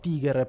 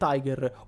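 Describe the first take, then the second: First: Tiger is said with German pronunciation. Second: Tiger is said without German pronunciation.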